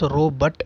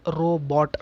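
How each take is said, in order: First: The second syllable rhymes with 'but'. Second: The second syllable rhymes with 'bought'. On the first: "short with an U and pronounced as robot, B U T" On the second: "softer with O and pronounced as robot, B O U G H T"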